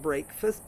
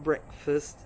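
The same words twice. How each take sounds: First: The first vowel is a long A sound. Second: The first vowel is a short E sound. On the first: The speaker calls it wrong. "the break in breakfast is not breakfast" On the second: The speaker calls it right. "but breakfast, the morning meal"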